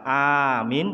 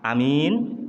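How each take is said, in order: First: The first vowel is a long a sound. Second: The first vowel is a short a sound. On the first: "amin panjang" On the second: "amin pendek"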